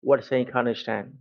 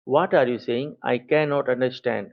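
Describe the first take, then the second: First: Words are said fast and run together. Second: Every word is said slowly and clearly.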